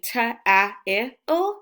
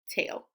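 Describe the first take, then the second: First: The vowels are sounded out separately. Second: The vowels blend into one smooth sound. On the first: The speaker calls it wrong. "we would never say ta-a-il" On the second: The speaker calls it right. "A-I together says A"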